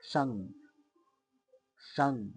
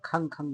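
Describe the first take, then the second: First: The syllable begins with a 'ksh' cluster. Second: The syllable begins with a plain 'kh' sound. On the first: The speaker calls it right. "মানে ক্ষীয় আকার অনুসার।" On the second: The speaker calls it wrong. "তোমরা আবার খাং খাং বলো না।"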